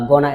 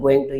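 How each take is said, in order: First: The words are contracted and blended together. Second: Every word is said fully and separately. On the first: "gonna instead of" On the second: "instead of going to"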